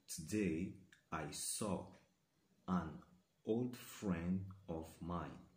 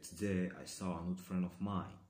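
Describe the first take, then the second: First: The sentence is said at a moderate pace. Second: The sentence is said quickly.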